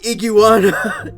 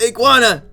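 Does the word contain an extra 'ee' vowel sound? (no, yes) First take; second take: yes; no. First: An extra 'ee' vowel is added inside the word. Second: No extra 'ee' vowel is added inside the word. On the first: The speaker calls it wrong. "There's no second I in iguana. Don't say iguana" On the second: The speaker calls it right. "It's iguana"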